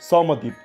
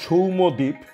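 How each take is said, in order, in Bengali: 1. প্রথম অংশে স্বরধ্বনি হল 'ao'। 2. প্রথম অংশে স্বরধ্বনি হল 'ou'। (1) "প্রথম সৌটা সাও হয়ে গেল" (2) "তার কারণ নাম সৌম্যদ্বীপ"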